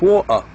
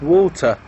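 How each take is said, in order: First: The t is dropped, Cockney style. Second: The t is pronounced clearly. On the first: "this person has come from the city called Cockney" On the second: "but not water"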